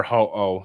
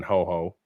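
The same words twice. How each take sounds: First: Ho-Oh said as "ho-oh", no second h; corrected name. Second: Ho-Oh said as "ho-ho"; mispronounced name. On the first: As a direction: open the second syllable of Ho-Oh on a bare "oh". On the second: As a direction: put a second h in Ho-Oh, like "ho-ho". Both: Real, not acted.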